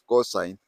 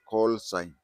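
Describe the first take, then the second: First: The L is dropped, so it sounds like cosine. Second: The L is clearly heard in call. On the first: The speaker calls it wrong. "people pronounce it as cosine" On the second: The speaker calls it right. "It is call, call sign"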